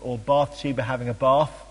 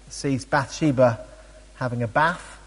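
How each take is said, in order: First: It is said in a southern English accent. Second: It is said in a northern English accent.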